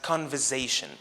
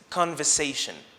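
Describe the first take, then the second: First: The middle consonant is a buzzing z sound. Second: The middle consonant is a hissing s sound. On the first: The speaker calls it wrong. "using the z sound instead of the s sound" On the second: The speaker calls it right. "the correct pronunciation is conversation"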